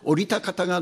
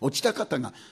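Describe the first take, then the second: First: It is said in standard Japanese, orita. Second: It is said with Tohoku dialect sounds, ochita.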